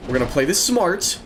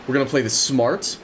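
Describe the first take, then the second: First: Smart leaned on with a falling finish; We're gonna play this smart, weight on smart; stress on smart. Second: Said in the usual way. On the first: Shown as a demonstration. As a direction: hit the word smart and let it drop. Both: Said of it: "Emphasis on the smart".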